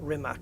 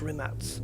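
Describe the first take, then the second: First: The c is said as a hard k. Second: The c is said like ts. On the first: The speaker calls it wrong. "It's not Rimac" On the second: The speaker calls it right. "the C like a T. ... It's pronounced Rimats"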